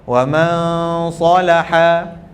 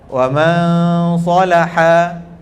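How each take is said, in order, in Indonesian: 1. Dengung sengau terbawa ke s. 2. Dengung sengau terbawa ke s.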